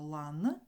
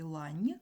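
First: Лан slowed, with a firm hard "n" at the end; hard final consonant. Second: Лань with a softened "n" at the end; soft final consonant. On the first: Teacher showing all consonants are hard, firm slow ending. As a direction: draw out лан and finish on an unsoftened н. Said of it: "тут всі приголосні тверді". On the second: Teacher pointing out the soft consonant, softened ending. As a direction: palatalise the last sound of лань. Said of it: "є один м'який приголосний". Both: Shown as a demonstration.

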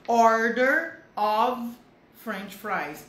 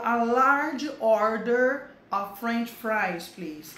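First: "of" said with a V sound, "Order of" very slow and loud. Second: "of" said as "ov", slow and clear. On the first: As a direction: stretch "Order of", voicing the f as v. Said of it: "Esse of é com som de V". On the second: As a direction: model "a large order of French fries" slowly. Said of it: "Com F só é com som de V". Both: Shown as a demonstration.

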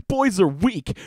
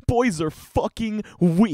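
First: Mock outrage. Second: Slower mock outrage. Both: Real, not acted. Outraged reaction to post.

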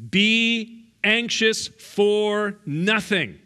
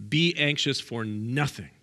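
First: "Be anxious for nothing" very slow, higher and louder, each word weighted; stated as command. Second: Said in the usual way. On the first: Shown as a demonstration. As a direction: lay it down like an order from the pulpit. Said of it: "That's a command".

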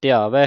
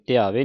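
First: ਧਿਆਵੈ ending in an open ai; correct ai ending. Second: ਧਿਆਵੇ ending in a close e; wrong ending vowel. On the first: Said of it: "ਇੱਥੇ ਦਲਾਵਾਂ ਲੱਗੀਆਂ". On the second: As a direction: end ਧਿਆਵੇ on plain ay sound. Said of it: "ਨਹੀਂ ਪੜ੍ਹਨਾ". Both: Shown as a demonstration.

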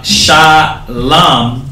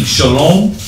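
First: Shalom said "sha-LAM" with open A vowels and no O; ancient Shalom. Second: Shalom said "sho-LOME" with a long O; their Shalom. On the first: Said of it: "the ancient way". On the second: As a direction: give Shalom a rounded O, sho-lom. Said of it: "that's the difference between Shalom". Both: Shown as a demonstration.

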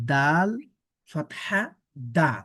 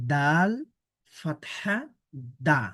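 The two takes are said the same way.

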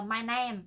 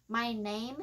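First: "name" said like "nem" with a short e; common mispronunciation of name. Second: "name" with a full "ay" glide; correct A sound. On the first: Teacher imitating what she often hears, mispronounced "name". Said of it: "Mình thường mình hay nghe nói là". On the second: Teacher correcting the vowel for learners, "name" with A sound. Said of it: "nó là âm A". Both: Shown as a demonstration.

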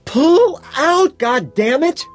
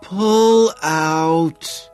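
First: Very high, loud scream. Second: High, loud, drawn-out groan. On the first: Woman ordering her ignoring lover off, screaming. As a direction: scream the order at full pitch. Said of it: "she screams". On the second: Woman struggling under her lover, groaning. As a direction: groan it out, stretched and straining. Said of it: "she groans". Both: A narrator's reading.

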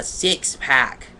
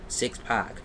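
First: Said in the usual way. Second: "pack" said as "pock"; misspelled word. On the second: Shown as a demonstration. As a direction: read "pack" with an open "ah", like "pock". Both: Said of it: "but never six pack".

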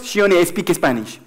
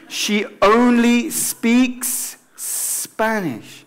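First: "speaks" and "Spanish" as "espeakes espanish"; E before S. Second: Very slow, hissed S starting "speaks" and "Spanish"; long pure S. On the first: Teacher mimicking learners' error, E before each S. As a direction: add Spanish E's to "speaks" and "Spanish". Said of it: "No es she only speaks Spanish". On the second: Teacher modelling the sentence, drawn-out clean English S. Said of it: "es un S como un serpiente". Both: Shown as a demonstration.

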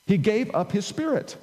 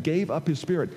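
First: Higher, punched stress on "gave"; "gave" stressed high, then "up his spirit"; emphatic restatement. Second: Said in the usual way. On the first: Shown as a demonstration. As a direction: drive home "gave" as a deliberate act. Emphatic restating against "wasn't taken.

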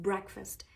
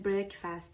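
First: Breakfast with a short, reduced second vowel, "BREK-fəst"; breakfast with a short weak "fəst"; correct breakfast pronunciation. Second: Breakfast said wrongly with a full "fast" at the end; breakfast with an unreduced "fast" ending; mispronounced breakfast. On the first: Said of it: "ای کوتاه انگار". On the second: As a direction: say breakfast as "brek-FAST", full vowel in the second syllable. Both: Shown as a demonstration.

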